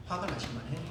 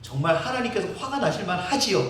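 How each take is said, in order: First: Much softer echo of the line; soft murmured repeat; quiet repeat. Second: Said in the usual way. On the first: Real, not acted. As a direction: drop to a murmur.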